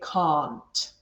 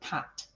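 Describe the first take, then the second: First: It is said in a classic English accent. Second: It is said in a Scottish accent. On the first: "received pronunciation accent, sort of a classic English accent" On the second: "instead of can't"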